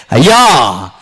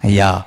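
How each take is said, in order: First: A loud, aching cry of అయ్యా with a falling tune; tearful plea. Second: Cool, calm reply. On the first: Acted. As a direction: call out అయ్యా to God in grief. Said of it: "దేవునికి ఇంపైన దుఃఖం". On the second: Retold or imitated. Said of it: "ఎంత కూల్గా answer చేస్తుందో".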